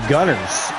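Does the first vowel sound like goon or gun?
gun. The first vowel is short, as in gun. "from a North American perspective, it's actually Gunners"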